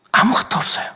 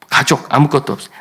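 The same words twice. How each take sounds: First: Breathy whisper, pitched up. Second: Said in the usual way. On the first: Shown as a demonstration. Preacher whispering to the congregation that nothing is left. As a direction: let 아무것도 없어요 fall to a whisper.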